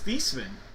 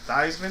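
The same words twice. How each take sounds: First: The name does not rhyme with Heisman. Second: The name rhymes with Heisman. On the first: This is the family's original pronunciation. "his last name actually is Theismann" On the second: This is the changed pronunciation chosen to match the trophy. "Theismann for the Heisman"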